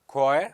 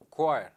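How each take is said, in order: First: "choir" said as kwire, like the singing group; choir for singers. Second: "choir" for coir, said short as ka with a clipped ending; coir for rope. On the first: Teacher to students, saying "choir" as kwaɪə for the singing group. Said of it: "C H O I R". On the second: Teacher to students, saying "choir" short and falling as coir. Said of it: "and C O I R". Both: Shown as a demonstration.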